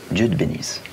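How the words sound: It is said in a grave, serious tone. "Le sérieux"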